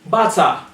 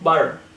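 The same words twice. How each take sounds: First: The T is pronounced as a crisp T. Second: The T is pronounced like a soft D. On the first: The speaker calls it right. "it has to sound like T" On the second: The speaker calls it wrong. "not a D"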